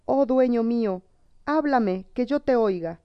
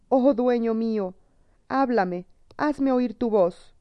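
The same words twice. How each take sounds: First: A hint of sobs as she begs again; sobbing plea. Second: A touch of weeping as she begs; tearful pleading. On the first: Witch sobs and begs her silent lover again, mild tearful plea. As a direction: beg him through mild tears to speak. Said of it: "rompió en sollozos y volvió a implorar". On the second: Witch at her silent lover's side, mild tearful plea. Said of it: "se puso a llorar e imploró". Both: A narrator's reading.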